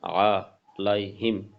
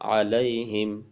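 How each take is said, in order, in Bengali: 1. আলাদা আলাদা অংশে, মাঝে বিরতি দিয়ে বলা হয়েছে। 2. বিরতি ছাড়া মসৃণভাবে জোড়া লাগিয়ে বলা হয়েছে। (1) "বাঙ্গা বাঙ্গা" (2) "একসাথে"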